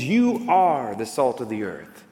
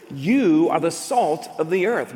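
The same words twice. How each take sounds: First: "You" pressed hard and slow, the rest measured; emphatic You. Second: Said in the usual way. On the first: Shown as a demonstration. Preacher quoting Jesus to the disciples, slow emphasis on "You". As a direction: lean on "You" as if pointing at every listener. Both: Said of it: "Jesus is speaking in an emphatic".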